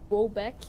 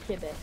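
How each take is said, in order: First: The first syllable has an added 'o' sound. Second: The first syllable has no 'o' sound. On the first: This is how most people say it. The speaker calls it wrong. "tout le monde, il dit comme Quebec" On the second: This is how it really is said. The speaker calls it right. "mais c'est vraiment juste Quebec. There's no O"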